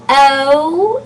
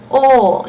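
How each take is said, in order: First: Long "O" gliding up into "oo"; diphthong O. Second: "O" as one steady "aw"-like sound; pure O vowel. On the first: Teacher ruling out the diphthong, long gliding "O". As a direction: stretch "O" into English "oh-oo". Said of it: "O is not an option". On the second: Teacher giving the right option, pure unglided "O". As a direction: say "O" with no glide at all. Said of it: "but O". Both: Shown as a demonstration.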